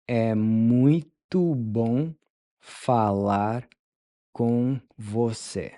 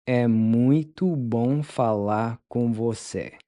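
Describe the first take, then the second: First: "É muito bom" slowed into chunks with pauses; slow broken-up model. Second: Said in the usual way. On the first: Shown as a demonstration. Teacher modeling the phrase slowly in chunks for learners. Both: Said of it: "How do you tell someone".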